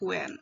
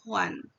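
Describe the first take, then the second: First: The final vowel sounds like 'en'. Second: The final vowel sounds like 'an'. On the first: The speaker calls it wrong. "bukan huen" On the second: The speaker calls it right. "itu akan tetap dibaca huan"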